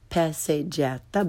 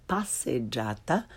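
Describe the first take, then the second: First: "passeggiata" with English short a's; learner's mispronunciation. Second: "passeggiata" with open ah, softer; correct Italian pronunciation. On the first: Teacher shows beginners' mistake, "passeggiata" with English short a. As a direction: say "passeggiata" starting like English pass. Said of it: "first the way most people". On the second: Teacher corrects beginners, "passeggiata" with Italian ah. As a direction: say "passeggiata" as pahs-sed-JAH-tah. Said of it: "follow it with the correct pronunciation". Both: Shown as a demonstration.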